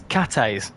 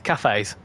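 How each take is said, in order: First: The middle consonant is a plain t sound. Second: The middle consonant is a th sound. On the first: The speaker calls it right. "it's cates, apparently. ... you don't actually need to have the H in it" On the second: The speaker calls it wrong. "I pronounce it as cafes. It's not"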